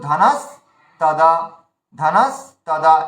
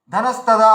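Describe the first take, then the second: First: ধানাস্তাদা very slow, stopping after স; pause mid-word. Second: Said in the usual way. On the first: Shown as a demonstration. Teacher shows learners the middle stop, ধানাস্তাদা broken in two. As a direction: hold the start of ধানাস্তাদা, gap, then তাদা. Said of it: "এই যে এই মাঝখানে একটা থামছি". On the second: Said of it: "আছে লেখা".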